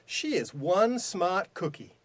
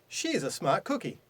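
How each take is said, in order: First: It is said forcefully, with more power. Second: It is said plainly, with mild emphasis.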